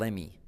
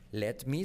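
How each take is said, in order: First: The t sound is dropped, words run together. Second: The t sound is clearly pronounced.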